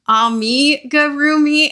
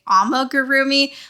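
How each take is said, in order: First: The word is said slowly and carefully. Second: The word is said quickly and run together. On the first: The speaker calls it right. "it's supposed to be amigurumi" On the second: The speaker calls it wrong. "I automatically say amigurumi"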